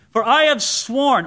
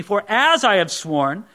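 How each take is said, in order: First: Said in the usual way. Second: As stressed and rising in for as I have sworn; corrected reading. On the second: Shown as a demonstration. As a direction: lean on the word as to fix the misreading. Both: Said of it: "or excuse me".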